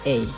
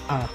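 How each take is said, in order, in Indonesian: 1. Ini vokal 'ay' yang meluncur ke 'ee'. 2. Ini vokal 'ah' yang terbuka dan polos. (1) "Kalau dalam bahasa Inggris, kita menyebutnya A" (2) "Dalam bahasa Indonesia, A kita sebut A. A biasa kan?"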